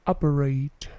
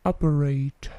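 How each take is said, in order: Both takes have the same delivery.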